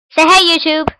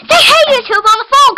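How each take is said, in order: First: Said in the usual way. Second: Louder demo. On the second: Shown as a demonstration. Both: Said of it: "Say it louder".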